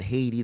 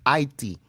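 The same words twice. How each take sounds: First: The word begins with an audible H sound. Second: The word begins without any H sound. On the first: The speaker calls it wrong. "It's not Haiti" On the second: The speaker calls it right. "The H is silent. It's Haiti"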